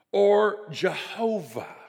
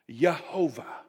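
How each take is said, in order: First: Said in the usual way. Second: Jehovah said as yeh-HO-vah, starting with a Y; Jehovah with a Y sound. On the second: Shown as a demonstration. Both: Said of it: "we would pronounce that word in two different ways".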